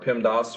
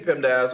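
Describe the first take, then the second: First: "pemdas" with an open "ah" in the last syllable; alternative pronunciation. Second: Said in the usual way. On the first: Shown as a demonstration. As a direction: say "pemdas" ending like "doss". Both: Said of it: "or however you want to pronounce it".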